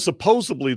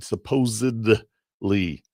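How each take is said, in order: First: The middle consonant is a B sound. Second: The middle consonant is a D sound. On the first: The speaker calls it wrong. "it's not a B with a like in boy" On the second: The speaker calls it right. "it's a D as in David"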